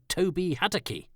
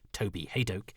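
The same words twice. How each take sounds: First: The surname has an altered pronunciation. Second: The surname has its standard pronunciation. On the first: The speaker calls it wrong. "they had pronounced my name wrong" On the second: The speaker calls it right. "is how it is done"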